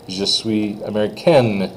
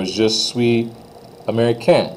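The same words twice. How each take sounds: First: Slow je suis américaine with its N; N sounded. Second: Je suis américain without final N; silent N. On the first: Teacher shows the sentence for a girl, N pronounced. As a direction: close américaine on the N. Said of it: "if I'm a girl". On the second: Teacher shows the sentence for a guy, N silent. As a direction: leave américain open at the end. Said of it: "if I'm a guy". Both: Shown as a demonstration.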